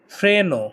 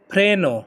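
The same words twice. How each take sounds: The two takes are said the same way.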